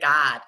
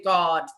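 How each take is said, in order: First: The vowel has the local Chicago sound. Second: The vowel is standard, not Chicago-style. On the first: "we say God" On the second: "We don't say God"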